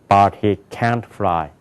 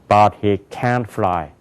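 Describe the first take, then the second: The two takes are said the same way.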